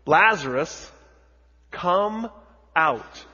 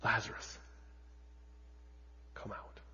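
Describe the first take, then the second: First: Higher, louder commanding call; Jesus calling Lazarus loudly into the tomb. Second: Softer, understated call; a quiet hint of a command; hushed read quote. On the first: Acted. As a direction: call him out of the tomb with full voice. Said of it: "Jesus says in a loud voice". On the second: A narrator's reading. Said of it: "he cried out with a loud voice".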